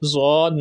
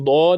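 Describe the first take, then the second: First: The word begins with a z-like sound. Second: The word begins with a d-like sound. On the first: The speaker calls it wrong. "ज़ौद नहीं पढ़ना" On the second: The speaker calls it right. "इसको दौद ही पढ़ना है"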